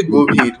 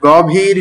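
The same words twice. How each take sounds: First: গভীর with a closed "o" in the first syllable; গভীর pronounced with a rounded first vowel, "gobhir"; correct closed-o pronunciation. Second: গভীর with an open "aw" in the first syllable; গভীর mispronounced with first vowel open, not rounded "o"; wrong open-vowel pronunciation. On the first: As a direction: say গভীর as "go-bheer". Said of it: "উচ্চারণ হবে গভীর". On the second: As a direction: say গভীর as "gaw-bheer". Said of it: "গভীর নয়". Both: Shown as a demonstration.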